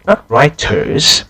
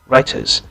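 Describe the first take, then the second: First: Each sound of the word is said fully. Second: The word is said in a relaxed, reduced way. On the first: The speaker calls it wrong. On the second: The speaker calls it right. "a more natural version"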